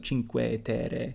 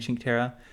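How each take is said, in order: First: Every syllable is pronounced, including final vowels. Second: The final vowels are clipped, French-like. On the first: The speaker calls it right. "in Italian you pronounce every like letter, every syllable" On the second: The speaker calls it wrong.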